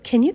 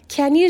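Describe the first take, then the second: First: The words are run together and reduced. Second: Each word is said fully and separately. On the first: The speaker calls it right. "can you ぐらいでいいです" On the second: The speaker calls it wrong. "can you じゃなくて"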